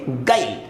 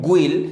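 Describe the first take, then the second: First: No 'u' vowel is heard after the g. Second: A 'u' vowel is sounded right after the g. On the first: The speaker calls it right. "ये पढ़ेंगे गाइल, क्योंकि जी I L E यहां पर यू drop हो गया" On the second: The speaker calls it wrong. "आप यू के बाद आई है तो आप इसको गुइल पढ़ते हैं, तो ये गलत है"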